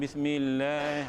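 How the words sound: It is said softly in a Kelantan accent.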